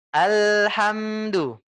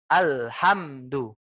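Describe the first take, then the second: First: Alhamdu slow and smooth with no stop at the lam; flowing. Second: Alhamdu slow with the lam braked hard and stopped; sudden brake. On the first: Ustaz showing the flowing correct reading, slow. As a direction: let Alhamdu flow unbroken, slowly. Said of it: "Biarkan dia mengalir". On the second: Ustaz showing the wrong stopped lam. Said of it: "rem mendadak tuh". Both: Shown as a demonstration.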